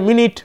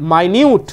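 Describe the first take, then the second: First: The word is said like 'minnit'. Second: The word is said like 'my-newt'. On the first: It refers to a unit of time. "যদি উচ্চারণ হয় মিনিট, তাহলে তোমার সময় বোঝাবে" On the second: It means precise or detailed. "যদি তোমার উচ্চারণ হয় মাইনিউট, তখন মানে হবে যথাযথ"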